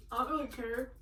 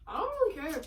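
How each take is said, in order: First: Said in the usual way. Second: Louder and higher, stress on really; emphatic. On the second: Shown as a demonstration. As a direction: push it out, punching really. Repeats the line, louder and higher.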